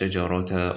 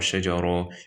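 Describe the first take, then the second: First: The word ends with a ta sound. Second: The word ends with an o vowel. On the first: "you don't say" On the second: "you don't say"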